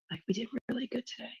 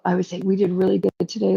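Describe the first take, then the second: First: Much softer and quicker under the breath; softer, fast repeat. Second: Said in the usual way. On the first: Real, not acted. Repeating praise to Lauren under her breath, softer and fast. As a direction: toss it off softly and fast.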